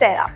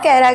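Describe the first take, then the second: First: The name begins with an S sound. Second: The name begins with a K sound. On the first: The speaker calls it right. "It's सेरा" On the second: The speaker calls it wrong. "It's not कैरा guys"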